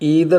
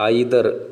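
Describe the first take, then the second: First: The first vowel sounds like 'ee'. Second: The first vowel sounds like 'eye'. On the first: "American പ്രൊനൗൺസിയേഷനാണ്" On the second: "Indian British pronunciation"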